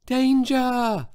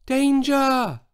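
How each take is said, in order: First: High, thin little shout that barely carries; a tiny high repeated warning; tiny shout again. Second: High, thin little shout that barely carries; shout, but small and weak; a tiny high call of danger. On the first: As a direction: call out once more, small and weak. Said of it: "He tried again". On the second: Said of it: "and shouted". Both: A narrator's reading.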